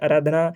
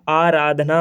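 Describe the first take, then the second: First: The word is said in a hurried, loose way. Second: The word is said in a careful, full way. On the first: This is the everyday hurried form. The speaker calls it wrong. "हम जल्दी में जो भाषा में यू उपयोग करते हैं वो कहते हैं" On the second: This is the correct standard form. The speaker calls it right. "आराधना होता है"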